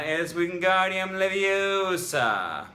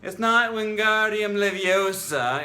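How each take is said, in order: First: High, loud, slow and bossy, long o in "Leviosa"; prim correction. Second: High, loud, bossy schoolgirl correction of "Leviosa"; know-it-all correction. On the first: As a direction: lecture it slowly like a prim classmate, "LeviOsa". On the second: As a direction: scold like a prim classmate, stretching "Leviosa". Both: Retold or imitated. Quoting the Harry Potter spell lesson.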